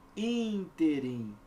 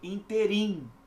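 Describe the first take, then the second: First: The stress is on the first syllable. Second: The stress is on the last syllable. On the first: The speaker calls it right. "proparoxítonas" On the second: The speaker calls it wrong. "O examinador costuma colocar o quê? ... Cuidado"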